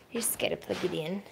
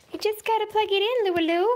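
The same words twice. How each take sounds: First: Said in the usual way. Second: High, loud, fast sing-song to the pet; talking to a dog. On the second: Real, not acted. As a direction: chirp it brightly at the dog. Repeats line to the dog.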